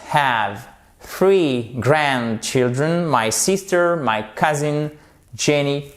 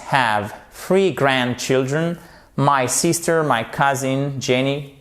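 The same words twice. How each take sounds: The two takes are said the same way.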